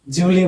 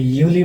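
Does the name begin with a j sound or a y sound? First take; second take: j sound; y sound. First: The name begins with a j sound. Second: The name begins with a y sound. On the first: The letter is read the English way. "जय" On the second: The letter is read the German way. "German यूली है"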